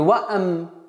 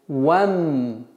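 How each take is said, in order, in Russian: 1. Перед m вставлен лишний гласный 'a'. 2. 'wa' переходит прямо в m, без гласного. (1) "Не ваам" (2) "с фатхи вава перепрыгиваем на мим"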